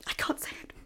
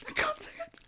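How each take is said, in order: First: Whispering. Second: High, whimpering whisper; crying whisper. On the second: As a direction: whisper it as if about to cry. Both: Acted. Too shocked to say it.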